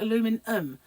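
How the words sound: It is said with four syllables, American style. "You call it aluminum"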